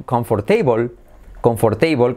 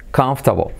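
First: Comfortable said the Spanish way, kon-for-tei-bol, every syllable; wrong comfortable. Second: Comfortable squeezed to /kaftabo/, three quick syllables; native comfortable. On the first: Teacher shows the wrong pronunciation of comfortable. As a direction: sound comfortable out as it is spelled. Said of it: "no se dice". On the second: Teacher gives the right native comfortable. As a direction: clip comfortable to kanf-ta-bo. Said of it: "se dice comfortable". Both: Shown as a demonstration.

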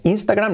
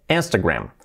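First: "Instagram" with a clear i, higher; the mistaken "Instagram", first vowel "ee"; Spanish-style Instagram. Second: "Instagram" starting with e, lower and falling; English-style Instagram. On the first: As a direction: say "Instagram" starting "ins". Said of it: "No es Instagram". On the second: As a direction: say "Instagram" as "ens-te-gram". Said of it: "no, E". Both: Shown as a demonstration.

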